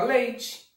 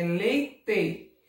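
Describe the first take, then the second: First: Leite with the final te said as chee, ending in an I sound; everyday pronunciation. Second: Leite with a clear final e and a hard t, just as it is written; spelling pronunciation. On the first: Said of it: "parece que termina com I?". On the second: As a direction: spell out leite by sound, ending in a plain te. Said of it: "Escreve no final com a letra E". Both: Shown as a demonstration.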